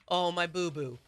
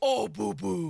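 First: It is said in her ordinary speaking voice. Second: It is said in a cooing baby-talk voice.

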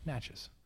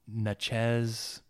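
First: It sounds like matches with an N. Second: It does not sound like matches with N. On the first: The speaker calls it right. "it's like matches with an M, but it's like it's an N" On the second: The speaker calls it wrong. "the way he butchered the pronunciation was like"

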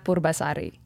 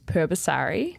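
First: It is said with an Indonesian pronunciation. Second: It is said with a Western, English-style pronunciation. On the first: "The Indonesian version" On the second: "the Western version is"

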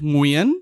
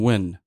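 First: The name does not sound like English 'win'. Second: The name sounds like the English word 'win'. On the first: The speaker calls it right. "that was perfect" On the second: The speaker calls it wrong. "They're saying win"

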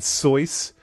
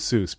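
First: The name rhymes with 'voice'. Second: The name does not rhyme with 'voice'. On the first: This follows the original German surname. "he prefers the pronunciation Soyce" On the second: This is the common anglicized form. "I'm sticking with Seuss"

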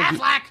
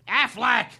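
First: The duck voice is done in full performance. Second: The duck voice is done casually, half-hearted. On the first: The speaker calls it right. "There you go" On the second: The speaker calls it wrong. "No, do it like you do it if you're getting paid"

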